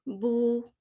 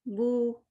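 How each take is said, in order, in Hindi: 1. यह स्वर एक गोल होंठों वाली 'oo' ध्वनि है। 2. यह स्वर एक गोल होंठों वाली 'oo' ध्वनि है।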